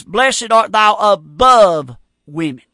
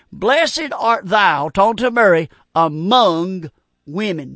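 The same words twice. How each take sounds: First: Slow and heavy on "above"; stress on above. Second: Slow reading, "among" drawn out; stress on among. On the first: Preacher quoting the wrong verse to scorn it, slow and pointed. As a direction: read "above women" slowly, pressing on "above". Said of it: "God never said it". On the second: Preacher reading scripture to his radio flock, slow and deliberate. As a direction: read "Blessed art thou among women" slowly, leaning on "among". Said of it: "I want you to underline this word among". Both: Shown as a demonstration.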